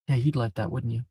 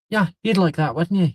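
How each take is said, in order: First: It is spoken in the speaker's plain accent. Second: It is spoken in an Irish accent. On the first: The speaker calls it wrong. "Wait, no, I have to change the voice" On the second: The speaker calls it right. "He has an Irish accent"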